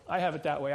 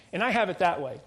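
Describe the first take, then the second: First: Said in the usual way. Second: "have" leaned on, louder; stress on have. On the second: Real, not acted. Preacher admitting his sin to the congregation, hitting "have". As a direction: press hard on "have" as a confession. Preacher confessing envy, repeats line.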